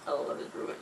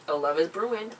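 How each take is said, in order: First: Teasing whispered aside. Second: Said in the usual way. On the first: Real, not acted. Teasing about the pair holding hands, whispered. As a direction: whisper it like a secret.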